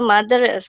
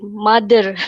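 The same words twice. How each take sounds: First: The middle consonant is a soft 'th' sound. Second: The middle consonant is a hard 'd' sound.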